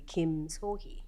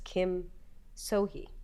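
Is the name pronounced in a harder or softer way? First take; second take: softer; harder. First: The name is pronounced with softer, gentler sounds. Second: The name is pronounced with harder, plainer sounds.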